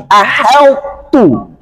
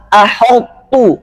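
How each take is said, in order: First: "aheltu" with light thin h, slow and clear. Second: "aheltu" with thick emphatic h, slowed; wrong heavy aheltu. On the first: Teacher models the correct thin reading. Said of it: "tapi aheltu". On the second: Teacher demonstrates the forbidden thick reading. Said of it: "Jangan aheltu". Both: Shown as a demonstration.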